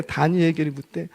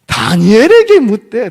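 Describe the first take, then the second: First: Said in the usual way. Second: 다니엘에게 raised high and loud; emphatic repeat. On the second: Real, not acted. Preacher answering his own question to the congregation, emphatic. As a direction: punch 다니엘에게 loudly, voice climbing. Preacher stresses whom he asked.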